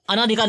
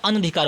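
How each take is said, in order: First: अनाधिकार with long आ after अन; अनाधिकार, marked as incorrect; wrong pronunciation. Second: अनधिकार with short अ, no long आ; अनधिकार, teacher's right form; correct pronunciation. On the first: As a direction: stretch the ना in अनाधिकार as the wrong form. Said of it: "अनाधिकार नहीं होता है". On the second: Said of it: "अनधिकार होता है". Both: Shown as a demonstration.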